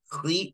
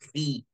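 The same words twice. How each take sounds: First: The kh sound is strongly thickened and heavy. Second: The kh sound is only lightly thickened. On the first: The speaker calls it wrong. "Jangan baca khi" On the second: The speaker calls it right. "tibalnya tidak nambah, tidak kuat"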